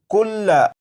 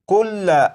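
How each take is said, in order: First: The word ends with a short final vowel. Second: The same.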